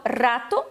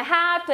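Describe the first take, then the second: First: Rato with a rolled Spanish r; strong R. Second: Rato with a Portuguese h-like r; wrong R. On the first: Teacher correcting the sound of rato, strong R. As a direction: trill the first r of rato. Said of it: "O R forte". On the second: Teacher showing what it is not, h-like R. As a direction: start rato with a breath h, no trill. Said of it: "que não é rato". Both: Shown as a demonstration.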